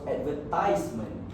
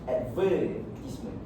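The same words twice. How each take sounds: First: The stress is on the third syllable. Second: The stress is on the second syllable. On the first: "the stress is on the third syllable" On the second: "the stress is being put in the word verb"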